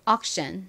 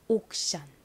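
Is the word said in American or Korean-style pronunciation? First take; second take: American; Korean-style. First: It is said with American English sounds. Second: It is said with Korean-style sounds. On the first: "미국식 발음으로 해볼게요" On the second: "이 단어를 한국식으로 읽어보면요"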